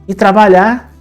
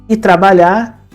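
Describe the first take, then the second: Both takes have the same delivery.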